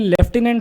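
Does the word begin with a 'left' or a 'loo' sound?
left. It is said with a British 'left' sound first. "British English में लेफ्टिनेंट होता है"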